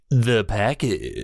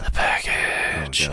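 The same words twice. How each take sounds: First: It is said at normal speed in a plain voice. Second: It is said slowly in a breathy voice.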